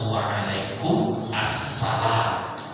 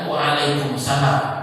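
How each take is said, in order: First: The article before salam is clearly pronounced. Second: The article before salam is dropped. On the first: The speaker calls it right. "harus waalaikum assalam" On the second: The speaker calls it wrong. "Jangan waalaikumsalam. Itu tidak ahsan"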